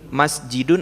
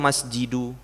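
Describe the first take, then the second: First: The word ends with an added n sound. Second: The word ends on a bare u vowel. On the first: The speaker calls it right. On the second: The speaker calls it wrong.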